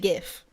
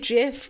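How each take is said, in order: First: It starts with a hard G sound. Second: It starts with a soft J sound. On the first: The speaker calls it right. "It's a G" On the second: The speaker calls it wrong. "you're an op"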